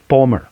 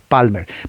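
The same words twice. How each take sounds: First: English vowels, an O-like vowel, silent L. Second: Spanish vowels, with a clear A and L. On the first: "la A es O, la L casi no se pronuncia" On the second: "en español es Palmer"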